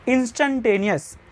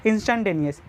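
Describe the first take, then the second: First: instantaneous said slowly and deliberately, each syllable drawn out; drawn-out term. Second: Said in the usual way. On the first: Shown as a demonstration. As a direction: lay out instantaneous slowly for the class. (Instantaneous को धीरे-धीरे खींचकर बोलें) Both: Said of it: "आ जाओ instantaneous के बारे में".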